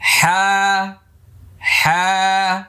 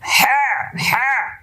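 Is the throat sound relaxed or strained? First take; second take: relaxed; strained. First: The throat sound is easy and relaxed. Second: The throat sound is pressed and strained. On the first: The speaker calls it right. "একদম ইজি ভাবে। দেখেন আমার চেহারাতে দেখেন কোনো চাপ পড়ে কিনা।" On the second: The speaker calls it wrong. "অনেকটা চাপাচাপি করার দরকার নেই। হ্যাঁ হ্যাঁ এরকম যেন না হয়"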